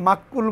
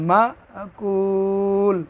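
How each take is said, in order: First: The k is doubled with no catch. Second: A glottal catch follows ma before kul. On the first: The speaker calls it wrong. "এখানে অনেকে মাক্কুল বলেন, শব্দটা কিন্তু মাক্কুল না" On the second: The speaker calls it right. "মা ধাক্কা দিয়া ... উচ্চারণটা হবে মা কুল"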